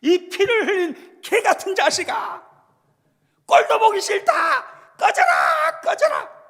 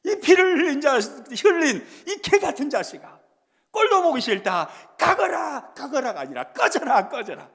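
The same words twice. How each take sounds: First: A much higher and louder shouted insult in rough Jeolla dialect; Jeolla dialect curse. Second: Loud shouted insult, fading by the last word; Shimei's angry curse. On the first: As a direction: spit it out like a furious Jeolla villager. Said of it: "전라도 말로 번역을 하면". (전라도 사투리로 악쓰는 욕설) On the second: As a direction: yell it at the fleeing king, then let it drop. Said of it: "막 이렇게 하는 거예요". (도망가는 왕에게 퍼붓는 고함) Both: Retold or imitated.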